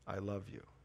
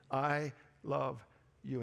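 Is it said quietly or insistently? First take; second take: quietly; insistently. First: It is said quietly and gently. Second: It is said with insistent force.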